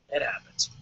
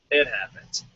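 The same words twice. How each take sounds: First: "it happens" whispered, no voice. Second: Said in the usual way. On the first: Shown as a demonstration.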